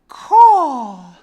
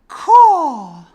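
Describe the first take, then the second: First: It is said trailing off, fading away. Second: The same.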